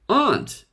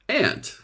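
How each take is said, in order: First: The vowel rhymes with want. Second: The vowel rhymes with ant, the insect. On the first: This is the usual British pronunciation. "Most Brits pronounce it aunt to rhyme with want" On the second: This is the usual American pronunciation. "Most Americans pronounce the word ant to rhyme with ant"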